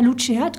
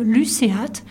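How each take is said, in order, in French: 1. Luceat se prononce sans la prononciation latine à la française. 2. Luceat se prononce avec la prononciation latine à la française. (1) "On ne dira pas luceat, comme on vient d'entendre" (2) "comme on prononçait le latin à l'église à l'époque de Gossec"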